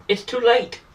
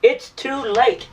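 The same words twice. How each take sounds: First: Said in the usual way. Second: "It's too late." drawn out slowly, leaning on "late"; slow right down on "It's too late." to drive it home; a heavy, deliberate "It's too late."; slow emphatic repeat. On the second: Real, not acted.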